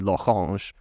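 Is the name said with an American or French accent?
French. The name is said with a French accent.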